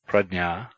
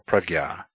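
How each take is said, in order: First: The middle cluster sounds like dny. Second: The middle cluster sounds like gy. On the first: "is pronounced as nny, dny, or gy" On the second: "or prajna"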